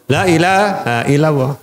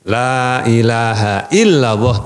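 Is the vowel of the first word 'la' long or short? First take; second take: short; long. First: The first vowel 'la' is clipped short. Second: The first vowel 'la' is drawn out long. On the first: There is a god besides God. The speaker calls it wrong. "lafaznya cepat" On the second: There is no god but God. The speaker calls it right. "tidak ada ilah kecuali Allah"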